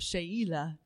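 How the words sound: The name's vowels are said with different sounds.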